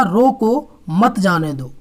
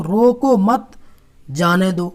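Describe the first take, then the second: First: "रोको", break, then "मत जाने दो" together; slow, with मत joined to जाने after a pause. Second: "रोको मत" as one phrase, break, then "जाने दो"; pause after मत. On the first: Teacher contrasting the other reading for students, pause after रोको. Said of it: "अगर यहाँ लगा होता". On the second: Teacher showing how punctuation changes meaning, pause after मत. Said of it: "अगर हमारा चिन्ह यहाँ लगा होता". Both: Shown as a demonstration.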